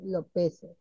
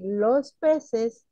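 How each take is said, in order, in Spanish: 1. Los sonidos de la "s" se omiten. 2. Los sonidos de la "s" se pronuncian completamente. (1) "omiten los fonemas, entre ellas la S" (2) "En vez de decir"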